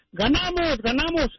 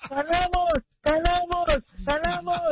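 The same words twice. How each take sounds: First: Higher, excited shout of victory; the father cheers the win in his normal voice. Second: High nasal cheer, ganamos said like kalamos; nasal gangoso cheer. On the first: Father bursts in after the game, normal victory cheer. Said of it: "entró su papá gritando". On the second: Godfather comes in, nasal gangoso cheer of ganamos. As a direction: shout ganamos through a blocked nose as kalamos. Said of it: "normal, ¿verdad?". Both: Acted.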